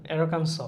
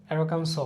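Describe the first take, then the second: The two takes are said the same way.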